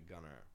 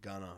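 First: The name is said in a standard accent. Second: The name is said in a Massachusetts accent. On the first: This is the name's proper pronunciation. "I think it's actually Gunner" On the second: This is how locals say the name. "but it's fucking Gunner around here. It's fucking Massachusetts"

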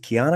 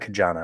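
First: The name has no 'j' sound in it. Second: The name has a 'j' sound in the middle. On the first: The speaker calls it wrong. "I always say it wrong" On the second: The speaker calls it right. "It is Kajana"

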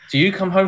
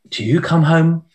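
First: The voice is firmer and less soft. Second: The voice is very soft and gentle. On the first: "you need to harden it up a bit" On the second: "it's got to be a softer voice"

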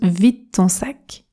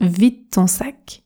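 First: The d in 'vide' is nearly dropped. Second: The d in 'vide' is nearly dropped.

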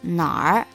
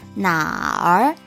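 First: The R blends in as one sound. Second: The R is pronounced as a full separate sound. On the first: "R sound kind of like blends in and becomes 哪儿" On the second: "the full R as in 哪儿"

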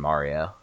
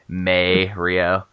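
First: The first syllable is said like 'ma'. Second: The first syllable is said like 'may'.

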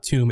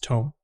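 First: The vowel is a long 'oo' sound. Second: The vowel is an 'oh' sound. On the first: The speaker calls it wrong. "It's not tomb" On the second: The speaker calls it right. "it's tome"

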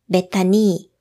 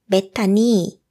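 The two takes are said the same way.

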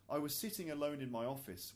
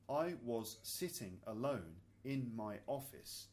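First: It is spoken quickly at natural speed. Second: It is spoken slowly with separated words. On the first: "really, really naturally at natural speed" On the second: "kind of more slowly so you can hear the individual words"

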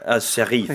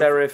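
First: The word is said with a French accent. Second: The word is said with an English accent.

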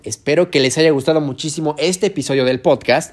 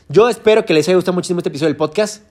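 First: It is said more slowly. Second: It is said at a normal speed.

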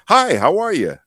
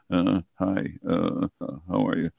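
First: It is said smoothly and confidently. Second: It is said haltingly, with hesitant pauses.

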